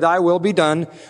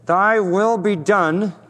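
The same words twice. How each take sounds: First: It is said in a plain, neutral tone. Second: It is said with bitter resentment.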